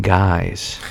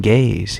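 First: Guys with a plain long eye vowel, very slowly. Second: Gays with a plain ay vowel, slowly. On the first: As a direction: say guys clearly with an eye sound. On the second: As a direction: say gays clearly with an ay sound. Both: Shown as a demonstration. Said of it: "He's saying guys".

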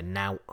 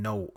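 First: "nout." with a broad ou vowel; Lancashire nout. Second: Said in the usual way. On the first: Shown as a demonstration. Host shows how Lancashire folk say nothing. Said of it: "they'll say". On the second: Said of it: "instead of saying".

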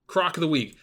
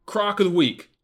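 First: Said in the usual way. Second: Loud announcer. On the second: Shown as a demonstration. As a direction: pick announced loud and high like a segment title. Announcing the pick segment.

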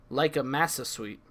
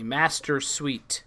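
First: "massa" with no T or R; dropped R. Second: Slow "Master" with crisp T and full R; clear T and R. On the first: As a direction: say "massa suite" swallowing the T and R. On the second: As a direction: say "Master suite" slowly, sounding the T and R. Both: Shown as a demonstration. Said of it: "emphasize the T and the E and the R".

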